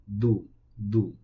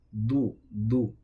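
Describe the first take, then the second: No difference in how they are said.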